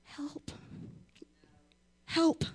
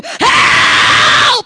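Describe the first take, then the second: First: Faint whispered help; a weak, barely-there call for help; the wrong way to cry out; timid help. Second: Much higher, loud yell for help; the right way to cry out; shouted help. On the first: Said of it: "are you gonna be like". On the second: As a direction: scream HELP like you're being robbed. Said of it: "What are you gonna do?". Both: Shown as a demonstration.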